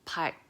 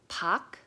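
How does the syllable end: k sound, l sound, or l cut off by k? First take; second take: l cut off by k; k sound. First: A started l sound is cut off by k. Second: The syllable ends with a plain k sound. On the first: The speaker calls it right. "it tries to do the L sound, but it's gonna stop it with the G sound" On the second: The speaker calls it wrong. "so it's not pak"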